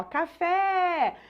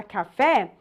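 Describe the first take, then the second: First: "café" called out with a long, drawn-out final "fé"; calling the word. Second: Said in the usual way. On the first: Shown as a demonstration. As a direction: call "café" as if to someone, stretching the stressed "fé". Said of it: "qual que é a sílaba que se estendeu?". (chamando "café", com o "fé" final bem esticado) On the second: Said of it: "se eu chamar, né, ó".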